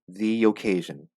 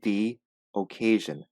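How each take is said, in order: First: The two words are joined without a pause. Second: There is a pause between the two words. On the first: The speaker calls it right. "You have to say the occasion" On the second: The speaker calls it wrong. "Do not pause. Do not say the occasion"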